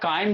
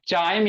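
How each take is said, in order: First: The word begins with a k sound. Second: The word begins with a ch sound. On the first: "या काइम भी पड़ता है बहुत सारा" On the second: "चाइम या काइम भी पड़ता है"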